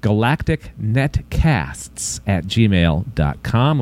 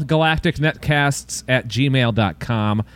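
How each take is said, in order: First: Very slow, lower email read-out; slow repeat. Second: Slightly slow email read-out; measured read-out. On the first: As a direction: spell out the address at half speed. Same email repeated much slower. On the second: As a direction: give out the address steadily. Email given out twice, slower second. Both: Shown as a demonstration.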